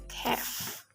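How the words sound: The vowel is an open front 'a' sound. "in American English pronounced as calf"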